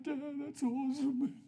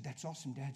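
First: High, drawn-out mock crying; mock blubbering. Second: Said in the usual way. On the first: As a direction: pretend to wail it to dad. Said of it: "I wasn't crying. I was like". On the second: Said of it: "I just took his shoulders and said".

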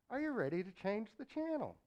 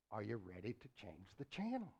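First: Booming repeat. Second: Said in the usual way. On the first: Acted. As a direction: ask it again with fire. Preacher repeats question louder.

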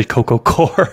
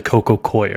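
First: "Core" said like apple core; one syllable in "Core", plain OR vowel; old pronunciation. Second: "Coir" said as COY-er; proper pronunciation. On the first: Host quoting his former way, "Core" as one syllable. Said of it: "I used to say Coco Core". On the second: Host sharing the proper way, "Coir" as COY-er. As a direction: give "Coir" an OY glide, COY-er. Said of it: "the proper way to say it". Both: Shown as a demonstration.

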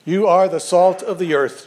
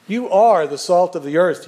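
First: "are" leaned on, falling at the end; stress on are. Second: "are" leaned on, said a bit louder; stress on are. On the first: Pastor quoting Jesus to the congregation, stressing "are". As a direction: give weight to "are" as a statement of fact. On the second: Pastor repeating Jesus' words, pressing "are". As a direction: give "are" the weight, not "ought to be". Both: Shown as a demonstration. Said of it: "Jesus is telling us what we are".

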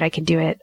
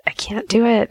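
First: Said in the usual way. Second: Higher-pitched, protesting cry of defeat; mock panic. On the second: Talking herself out of pressing the lancet button, panicky. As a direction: let the voice jump up as nerve fails.

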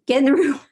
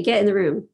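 First: Laughing mid-phrase. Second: Said in the usual way. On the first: Retold or imitated. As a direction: breaks into a giggle on the last word. Repeats it through laughter.

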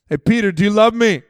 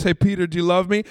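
First: Louder repeat. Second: Said in the usual way. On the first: Acted. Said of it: "They weren't listening". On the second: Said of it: "I imagine that conversation".

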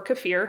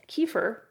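First: "kefir" with a short first vowel and a long feer; kuh-FEER pronunciation. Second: "kefir" with a long ee first, ending in fer; KEE-fer pronunciation. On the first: Vlogger offering the other way to say it, "kefir" as kuh-FEER. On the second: Vlogger offering one way to say a word, "kefir" as KEE-fer. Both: Shown as a demonstration. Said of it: "however you say it".

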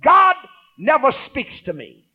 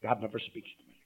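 First: Raised, slow mock complaint; mocking a doubter. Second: Softer, lower repeat of the complaint; quiet quoted complaint. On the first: Pastor imitating a doubting believer, raised and slow. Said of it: "don't ever allow yourself to say". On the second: Retold or imitated. Pastor repeating the doubter's words, much softer. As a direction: murmur it back to them. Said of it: "Don't ever let those words come out".

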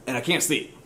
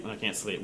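First: Said in the usual way. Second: Softer, trailing away; and I can't sleep, said softly and trailing off; fading, sleepless. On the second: Shown as a demonstration. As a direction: let the words sink into a tired hush. Repeated line, fading.

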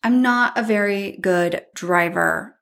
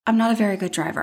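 First: Slowed down, each word weighted; slow emphatic admission. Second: Said in the usual way. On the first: Real, not acted. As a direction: spell out the confession deliberately.

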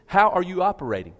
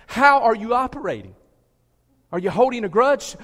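First: Said in the usual way. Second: Louder, pressing the question. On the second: Shown as a demonstration. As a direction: repeat it louder and higher, pushing.

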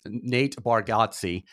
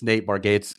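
First: Bargatze said slowly as "bar-GAHT-see"; corrected name pronunciation. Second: Bargatze said like "bar-gates"; mispronounced name. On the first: Podcast host fixing his slip on a comedian's name, carefully pronounced. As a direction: say Bargatze in three syllables, ending "gaht-see". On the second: Podcast host fumbling a comedian's name, mispronounced. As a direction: say Bargatze to rhyme its end with "gates". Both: Real, not acted.

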